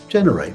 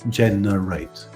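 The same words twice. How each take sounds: First: The word is said quickly. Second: The word is said slowly. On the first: "The second time, say it more quickly" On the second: "the first time, just say it slowly"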